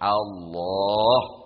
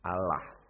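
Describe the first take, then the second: First: It is said with weighty, full Arabic articulation. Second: It is said plainly, without full Arabic articulation. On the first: It is the proper way to say the name. The speaker calls it right. "Lafaznya penuh dengan kewibawaan" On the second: It is the way non-Arabic speakers say the name. The speaker calls it wrong.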